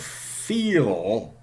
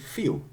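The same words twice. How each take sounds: First: The word ends in a dark L sound. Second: The final L is replaced by a vowel sound. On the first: "feel has a dark L" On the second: "in Cockney English it's really feel"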